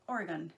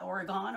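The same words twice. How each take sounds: First: Said in the usual way. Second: Oregon ending in a full "gone"; Oregon with an open last vowel; fancy Oregon. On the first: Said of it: "How do you say it?". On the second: Shown as a demonstration. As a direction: say Oregon fancily, like "ora-GONE". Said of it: "I guess I felt a little fancy".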